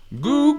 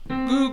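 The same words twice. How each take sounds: First: The voice sounds loose, hollow and hooty. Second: The voice sounds tight and strained. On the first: The speaker calls it right. "You've got to let it go a little bit hooty" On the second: The speaker calls it wrong. "you can feel the tension"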